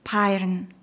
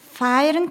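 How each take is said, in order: First: The word begins with a p sound. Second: The word begins with an f sound.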